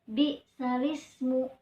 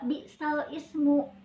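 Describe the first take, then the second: First: The words run together without any break. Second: The words are split with a break before ismu. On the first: The speaker calls it right. "membacanya bi salismu langsung ya" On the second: The speaker calls it wrong. "Kenapa nggak bi sal ismu?"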